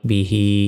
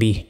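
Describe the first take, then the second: First: The word ends with a short i vowel. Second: The word ends on a bare h sound. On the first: The reading continues without stopping. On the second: The reader stops at this word.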